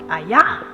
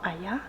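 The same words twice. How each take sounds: First: It is said strongly and loudly. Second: It is said softly and gently.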